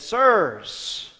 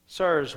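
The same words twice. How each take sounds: First: Loud, high plea of Sirs; pleading cry. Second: Said in the usual way. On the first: A narrator's reading. Jailer falls before Paul and begs, loud pleading.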